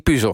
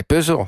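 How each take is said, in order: First: "puzzel" said with an uu-vowel, pussuh, final l dropped; "puzzel" with a rounded uu-vowel and no l; imitating editor's puzzel. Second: "puzzel" with the eu-vowel, peu-zel, clear final l; "puzzel" with a full eu-vowel and a crisp l; own puzzel. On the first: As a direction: mimic the editor saying "puzzel" as puuh-zuh. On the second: Retold or imitated. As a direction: say "puzzel" the host's way, peuzel. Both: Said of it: "hoe spreek jij nou puzzel uit".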